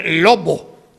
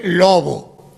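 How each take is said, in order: First: Lobo with a hard stopped B; exaggerated stop B. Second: Lobo with a soft fricative B; lobo, B barely touched; natural soft B. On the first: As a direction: close the lips fully on the B of lobo. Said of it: "nadie dice lobo". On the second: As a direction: let the B of lobo glide without closing. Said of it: "sino se dice lobo". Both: Shown as a demonstration.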